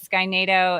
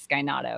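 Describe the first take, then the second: First: The second word is said like nay-toe. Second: The second word is said like nah-toe. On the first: This is the first reading of the name. The speaker calls it wrong. "I first read it as Sky NATO" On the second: The name comes from the pizza brand. The speaker calls it right. "now I think it's Sky Natto because it's Donato's"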